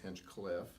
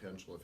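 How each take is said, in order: First: An extra k sound between the two parts. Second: No k sound between the two parts. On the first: The speaker calls it wrong. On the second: The speaker calls it right.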